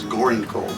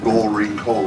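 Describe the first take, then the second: First: The first words are run together into one. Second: Each word of the name is said separately. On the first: This is how local people say the name. "the name got changed in the way we talk" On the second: This is the original form of the name. "You you say I was down to Gold Ring Cove"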